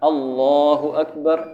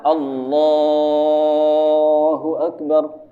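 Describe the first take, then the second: First: The vowel in Akbar is held only briefly. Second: The vowel in Akbar is stretched very long.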